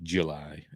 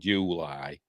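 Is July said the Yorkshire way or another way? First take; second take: other; Yorkshire. First: The word is said a non-Yorkshire way. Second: The word is said the Yorkshire way. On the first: "I've heard it pronounced July" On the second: "in Yorkshire he said July"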